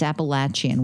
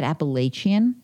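First: Appalachian as "appa-LATCH-un"; short-A pronunciation. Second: Appalachian as "appa-LAY-shun"; long-A pronunciation. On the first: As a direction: say Appalachian with a stressed "LATCH" in the middle. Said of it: "they made me change that". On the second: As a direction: say Appalachian with a stressed "LAY" in the middle. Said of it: "I always said Appalachian". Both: Shown as a demonstration.

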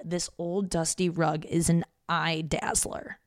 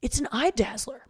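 First: Said in the usual way. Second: Dad proudly declaring "It's an eye dazzler"; light impression of dad praising the rug; imitating dad. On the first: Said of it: "My dad literally said". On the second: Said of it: "My dad's like".

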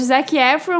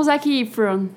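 First: Efron with an open first vowel, "EH-fron"; first of two pronunciations. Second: Efron with a closed "ee", "EE-fron"; alternative pronunciation. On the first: Asking friends which is correct, Efron as "EH-fron". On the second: Offering the other option to friends, Efron as "EE-fron". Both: Shown as a demonstration. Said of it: "A dúvida que eu tenho".

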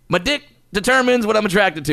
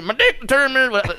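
First: High-pitched, lightly put-on comedian voice; a hint of celebrity impression; Cosby. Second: Much higher, exaggerated mock celebrity voice; hammed-up, high-pitched imitation; Cosby. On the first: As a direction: say it in a higher, mock-emphatic cadence. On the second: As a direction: push the impression up high. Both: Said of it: "said that kinda like Cosby".

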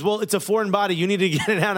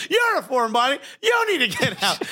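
First: Said in the usual way. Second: High-pitched mock outrage; indignant comeback. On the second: Patient's imagined retort to the foreign doctor, indignant. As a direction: throw it back at her, high and offended.

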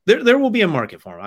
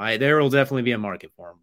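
First: Loud, high, insistent; emphatic. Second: Said in the usual way. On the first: Real, not acted. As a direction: belt it out with conviction. Emphatic repeat of his point.

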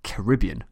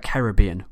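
First: Caribbean said "kuh-RIB-ee-un", American style; American pronunciation. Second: Caribbean said "ka-rib-BEE-un", British style; British pronunciation. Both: Shown as a demonstration. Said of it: "in the American vernacular".

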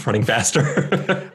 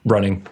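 First: Laughing and drawn out; laughing, slower. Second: Said in the usual way. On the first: Shown as a demonstration. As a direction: laugh through it slowly.

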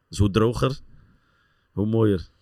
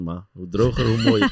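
First: Said in the usual way. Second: "hoe mooier" rising and loud; punchline stress on mooier. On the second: Shown as a demonstration. Player repeating his motto, louder rising punchline. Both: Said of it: "sommigen zeggen hoe natter".

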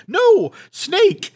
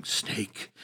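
First: High, loud frightened cry; urgent high warning; alarmed cry. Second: A frozen, breathless whisper; hushed whisper of fear. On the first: Marion points at the snake. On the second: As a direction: breathe the word out in dread. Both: Retold or imitated.

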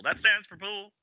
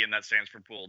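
First: Very high mock chorus echo; high-pitched, playful echo of a show line; theatrical echo. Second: Said in the usual way. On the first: Echoing the quoted line theatrically.

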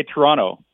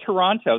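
First: "Toronto" with the second T dropped; local pronunciation. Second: "Toronto" with both Ts sounded; careful "Toronto", second T clearly pronounced; full spelled pronunciation. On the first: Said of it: "They say Toronto". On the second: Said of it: "It's spelled Toronto". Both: Shown as a demonstration.

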